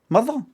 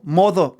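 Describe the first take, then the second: First: The first vowel sounds like 'muh'. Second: The first vowel sounds like 'moh'. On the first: "M U T H E R is how you say it" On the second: "That would be more like M O T H E R, which is how it's spelled. Like mo"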